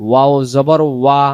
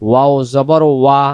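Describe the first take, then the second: Both takes have the same delivery.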